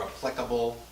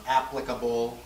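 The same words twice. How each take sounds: First: Applicable as a-PLIC-able; second-syllable stress on applicable. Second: Applicable as AP-plicable; first-syllable stress on applicable. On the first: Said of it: "people do both". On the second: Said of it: "sometimes there's more than one". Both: Shown as a demonstration.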